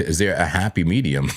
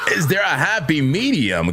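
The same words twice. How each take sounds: First: Said in the usual way. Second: Laughing shout. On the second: Real, not acted. Repeating his question to viewers, laughing shout.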